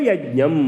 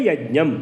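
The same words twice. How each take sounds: No difference in how they are said.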